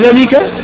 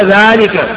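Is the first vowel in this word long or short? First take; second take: short; long. First: The first vowel is short, without an alif. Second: The first vowel is long, with an alif sound. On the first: The speaker calls it wrong. "ولو قرأتها على خطها تقول ذلك" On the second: The speaker calls it right. "ألف القراءة واجبة ذلك"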